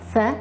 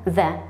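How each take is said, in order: First: "th" with an unvoiced consonant; isolated voiceless "th"; voiceless TH sound. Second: "the" with a buzzing consonant; isolated voiced th in "the"; voiced TH sound. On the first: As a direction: sound out "th" alone, tongue between the teeth, no buzz. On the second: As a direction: sound out "the" alone, voice on through the th. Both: Shown as a demonstration. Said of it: "two sounds".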